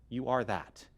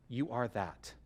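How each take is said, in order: Both takes have the same delivery.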